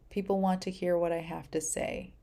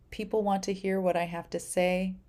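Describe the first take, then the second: No difference in how they are said.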